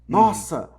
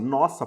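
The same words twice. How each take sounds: First: The word is said with strong exclamatory emphasis. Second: The word is said flatly, like a plain statement. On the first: The speaker stresses the idea forcefully. "você mete logo um ponto de exclamação" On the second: Maybe this belongs to us. "nossa, ponto"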